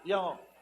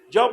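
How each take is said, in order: First: It is said weakly and hesitantly. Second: It is said firmly and with conviction. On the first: The speaker is afraid to answer. The speaker calls it wrong. "no así como yo" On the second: The speaker truly believes the answer. The speaker calls it right. "Diga así, yo por convicción"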